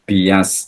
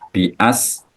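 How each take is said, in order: First: The hamza is replaced by a y sound. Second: The hamza is said as a glottal stop. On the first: "dengan diganti ya"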